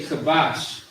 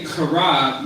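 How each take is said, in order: First: "kabash" with a light, ordinary K; unforced K. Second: "kara" with a forced, throaty K; forceful throat K. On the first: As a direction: keep the K of "kabash" easy, no throat force. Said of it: "not really saying it with too much force". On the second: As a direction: hit the K of "kara" hard from the throat. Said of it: "you're saying it with force". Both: Shown as a demonstration.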